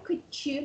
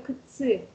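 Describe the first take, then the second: First: The middle consonant is a 'ch' sound. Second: The middle consonant is a 'ts' sound. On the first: This is how other dialect speakers say it. "мы не говорим кычи" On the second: This is how the speaker's own dialect says it. "мы говорим кыцы"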